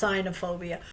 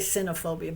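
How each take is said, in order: First: The first syllable sounds like 'sign'. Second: The first syllable sounds like 'sin'. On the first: This is believed to be the correct form. The speaker calls it right. "but I believe it's cynophobia. Sign, I b- think, is Greek for dog" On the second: This is how the speaker usually says it. The speaker calls it wrong. "I say cynophobia"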